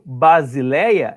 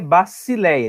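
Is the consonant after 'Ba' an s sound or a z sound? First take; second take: z; s. First: The consonant after 'Ba' is a z sound. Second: The consonant after 'Ba' is an s sound. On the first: This is the Portuguese-style reading. The speaker calls it wrong. "é a forma mais aportuguesada" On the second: This is the Greek reading. The speaker calls it right. "o grego é Basileia. Esse aqui tem som de, esse som de C mesmo"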